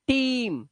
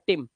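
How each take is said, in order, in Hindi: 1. स्वर लंबा और खिंचा हुआ है। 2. स्वर छोटा और कटा हुआ है। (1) "इसको टाइम दो" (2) "इसे टिम नहीं पढ़ना है"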